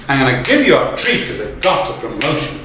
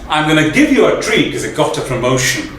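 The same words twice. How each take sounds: First: It is spoken with strong, evenly spaced beats. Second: It flows in a natural, unforced rhythm. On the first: "one of the exaggerated ways of saying it" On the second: "the natural way of saying it"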